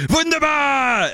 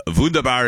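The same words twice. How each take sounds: First: High, drawn-out shouted WUNDERBAR; exuberant cry. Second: Said in the usual way. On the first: Acted. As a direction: belt it out like a candy-bar slogan, stretching the last syllable. Corrects himself with jingle-like cry.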